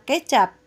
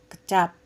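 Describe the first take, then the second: First: The first vowel sounds like in ember. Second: The first vowel sounds like in kembang. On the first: It means soy sauce. The speaker calls it wrong. "Bukannya kecap seperti kita mengeja kata ember" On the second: It means a word. The speaker calls it right. "Misalnya seperti mengeja pada kata kembang"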